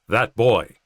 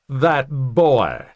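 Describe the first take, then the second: First: It is said in a plain, neutral voice. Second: It is said in a snarky Southern accent. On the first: The speaker calls it wrong. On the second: The speaker calls it right.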